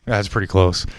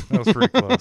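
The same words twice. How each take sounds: First: Said in the usual way. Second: "That was pretty close" said much higher, in a put-on voice with a rising end; mock crowd aw. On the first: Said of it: "more of a deep sigh". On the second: Shown as a demonstration. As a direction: swoop "close" up like a cooing crowd. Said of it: "more of a deep sigh than a".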